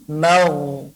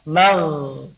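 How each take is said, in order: First: The sound is thick, with rounded lips. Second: The sound is thin, with spread lips. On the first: The speaker calls it right. "tapi mau" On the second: The speaker calls it wrong. "bukan mau"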